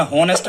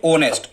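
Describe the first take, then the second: First: होनेस्ट said with a sounded h, ho-nest; the wrong reading होनेस्ट, starting with a clear h; wrong pronunciation with h. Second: ऑनेस्ट with the h silent, starting on the vowel aw; the correct reading ऑनेस्ट, no h at all. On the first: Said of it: "होनेस्ट नहीं पढ़ते". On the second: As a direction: say ऑनेस्ट the right way, opening straight on aw-nest. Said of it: "इसको पढ़ते हैं ऑनेस्ट". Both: Shown as a demonstration.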